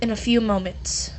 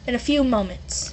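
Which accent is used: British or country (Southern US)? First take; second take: country; British. First: It is said in a Southern US country accent. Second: It is said in a British accent. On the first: "I got my country accent back" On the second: "I'll give him a British one as well"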